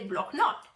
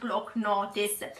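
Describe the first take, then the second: First: It is said with a French pronunciation. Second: It is said with an Italian pronunciation. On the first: "teoricamente alla francese" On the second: "noi lo chiamiamo all'italiana"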